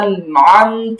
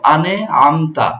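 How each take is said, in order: First: The n is held with no added vowel. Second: An extra vowel is added after the n. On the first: The speaker calls it right. "ধরে রাখতে হবে সাকিনের উচ্চারণ" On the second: The speaker calls it wrong. "এভাবে হবে না"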